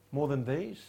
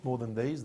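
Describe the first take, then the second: First: "More" lifted with a rise, "than these" lighter; stress on MORE. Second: "these" lifted with a rise, "more" kept light; stress on THESE. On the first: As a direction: lean on "More", let "these" fall away. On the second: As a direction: hit "these" as the puzzle word. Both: Shown as a demonstration. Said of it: "have you ever wondered what the these were?".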